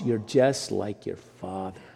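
The tone is scolding and disapproving. Resembling your father is a fault. "sometimes the tone is not very nice"

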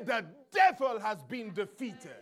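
It is said boldly and with confidence.

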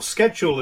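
The word is said in an American way.

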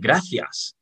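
The final s sound is clearly pronounced. "in Madrid, I would always say gracias"

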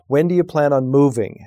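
The voice falls at the end.

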